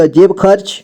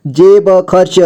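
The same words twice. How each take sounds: First: Said in the usual way. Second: जेब खर्च with ब given its own vowel; syllable by syllable. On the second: Shown as a demonstration. Teacher breaking down जेब खर्च for learners, syllable by syllable. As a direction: sound out जेब खर्च piece by piece. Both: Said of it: "जोड़ जोड़ करके".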